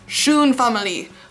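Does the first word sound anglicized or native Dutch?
anglicized. The first word is said with a learner's accent. The speaker calls it wrong. "It comes out schoen. ... But that's not correct"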